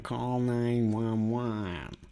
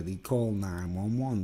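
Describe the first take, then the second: First: Nine one one said very slowly; slow emphatic. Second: Said in the usual way. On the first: Shown as a demonstration. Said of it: "Something's going wrong".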